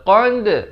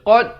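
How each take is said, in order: First: The final consonant bounces with spread lips. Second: The final consonant stops without a bounce. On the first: The speaker calls it right. "Dia kena baca qad" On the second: The speaker calls it wrong. "Jangan baca qad. Tak betul"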